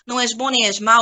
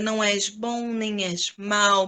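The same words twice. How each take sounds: First: It is spoken quickly and flatly, without emotion. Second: It is spoken very slowly, almost in slow motion. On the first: "meio corridinho mesmo" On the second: "Como se você quisesse quase fazer uma câmera lenta"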